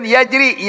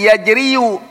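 First: Said in the usual way. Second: "Yajriyu" with the final -yu sounded; dhamma on ya. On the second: Shown as a demonstration. Teacher shows students the heavy reading, "Yajriyu" with a full -yu ending. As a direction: voice the hidden vowel: yaj-ri-yu in "Yajriyu". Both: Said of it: "Tapi itu berat".

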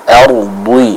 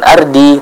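First: Ardi with a heavy, emphatic D; full, heavy dhad in ardi; thickened dhad. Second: Ardi with a plain, light D; thin-D ardi; wrong thin dhad. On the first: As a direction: thicken the D of ardi towards "ardhwi". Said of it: "menebalkan pengucapan dari huruf dhad". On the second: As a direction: show the mistake: ardi said with an ordinary dal. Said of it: "Nah, bukan ardi". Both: Shown as a demonstration.

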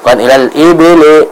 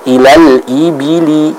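First: "ilal ibili" with I drifting to E, "ebele"; imitating the E error. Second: "ilal ibili" slowly with a pure I vowel; correct kasrah I. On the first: Teacher imitates student's mistake, I read as E. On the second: Shown as a demonstration. Teacher models Quran recitation, slow clear I vowels. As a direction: drop the jaw, "ilal ibili" with clean I. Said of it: "I, contoh".

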